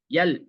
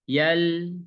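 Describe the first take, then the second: First: The L is cut off abruptly. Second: The L is held smoothly without stopping. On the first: The speaker calls it wrong. "Kalau yang salah" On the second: The speaker calls it right. "Jadi baca lam seperti ini"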